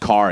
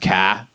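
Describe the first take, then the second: First: It is said in a standard accent. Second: It is said in a Boston accent.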